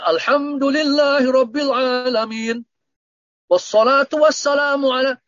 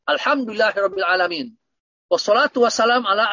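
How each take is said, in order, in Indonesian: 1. Diucapkan dengan gaya tilawah yang berirama. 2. Diucapkan dengan tempo bicara biasa. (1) "kan seperti ngaji Al-Quran itu salah" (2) "Tetapi apa yang dikatakan?"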